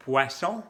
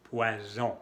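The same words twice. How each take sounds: First: Poisson with a sharp hissed S, louder; teacher contrasts Poisson with poison; French poisson with S. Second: Poison with a buzzing Z in the middle; teacher contrasts poison with Poisson; French poison with Z. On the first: Poisson said with a hissed S. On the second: Poison said with a buzzing z. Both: Shown as a demonstration. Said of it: "¿Cuál es la diferencia?".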